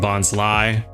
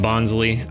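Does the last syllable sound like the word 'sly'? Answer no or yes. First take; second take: yes; no. First: The last syllable sounds like the word 'sly'. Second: The last syllable does not sound like 'sly'. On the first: This is how many other people say it. "Kind of makes sense with the whole sly nature of it" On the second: This is the speaker's usual way of saying it. "I've always pronounced it Bonsly"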